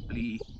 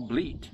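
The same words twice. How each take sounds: First: It is said northern-style, without the final T. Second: It is said southern-style, with the final T.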